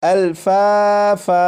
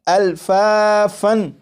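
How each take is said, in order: First: The word ends with a long a, no n. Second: The word ends with a short a and n. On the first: The reader stops on the word. "जब वक्फ करेंगे ... इसे इस तरह पढ़ेंगे" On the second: The reader continues without stopping on the word. "ये लफ्ज़ लिखा हुआ है अल्फ़ाफ़न"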